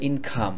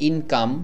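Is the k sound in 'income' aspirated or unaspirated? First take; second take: aspirated; unaspirated. First: The k is said with a strong puff. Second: The k is said plainly, without a puff. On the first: This is how British or American speakers say it. The speaker calls it right. "তারা বলে ইনকাম" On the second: This is how local learners usually say it. The speaker calls it wrong. "যেমন আমরা বলি ইনকাম"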